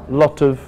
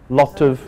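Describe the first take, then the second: The two takes are said the same way.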